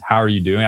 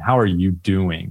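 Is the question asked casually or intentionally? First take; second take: casually; intentionally. First: It is asked in a quick, casual way. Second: It is asked in a deliberate, meaningful way.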